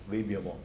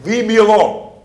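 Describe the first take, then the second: First: Low, soft aside; instinctive reaction. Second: High, loud cry to be left alone; demon's loud cry. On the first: Preacher restating the demon's instinctive reaction, quiet and low. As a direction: drop the voice low, almost thrown away. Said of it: "reacted instinctively". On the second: Preacher voicing the demon reacting to Jesus, loud high cry. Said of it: "And so he's saying". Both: Acted.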